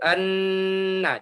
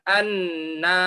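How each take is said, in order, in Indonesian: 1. Vokal setelah n pendek. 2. Vokal setelah n panjang. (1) "nanya kan pendek" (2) "jangan anna, nah, jadi panjang, itu tidak bisa"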